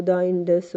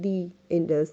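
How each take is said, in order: First: THE said as "thuh" before Indus; wrong article sound. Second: THE said as "thee" before Indus; vowel-sound article. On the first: Teacher quotes a student's mistake, THE as "thuh". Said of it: "ये एक big mistakes होंगी". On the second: Teacher corrects the river name, THE as "thee". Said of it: "You have to say". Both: Shown as a demonstration.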